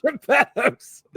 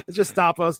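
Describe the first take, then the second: First: "Geppetto's" blurted high and loud; playful mispronunciation; jokey mix-up. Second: "Gestapo's" said properly, with a "shtah-po" sound; corrected. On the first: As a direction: laugh it out as "Geppetto's" in a high, loud, mock-confused voice. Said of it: "That's Pinocchio's dad". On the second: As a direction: set it right: "Gestapo's". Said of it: "Gestapo is what I meant". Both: Shown as a demonstration.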